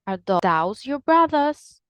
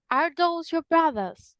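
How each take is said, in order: First: Those as "thows", Birmingham style; Birmingham accent. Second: Those with an O sound, British, pitched up; British English. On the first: Teacher comparing accents, Birmingham accent. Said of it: "but in Birmingham". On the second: Teacher comparing accents, British English. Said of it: "British English is going to say". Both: Shown as a demonstration.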